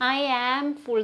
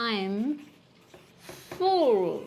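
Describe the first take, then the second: First: It is said with full separate I am. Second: It is said with the contracted form I'm. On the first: The speaker calls it wrong. "എന്ന് പറയരുത്" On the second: The speaker calls it right. "Natural version"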